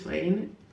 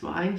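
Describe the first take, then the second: First: The vowel sounds like 'ay' in 'day'. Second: The vowel sounds like 'eye' in 'line'. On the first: This is the English way to say it. "In English it's vein" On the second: This is the Finnish way to say it. "In Finnish I think it's vine"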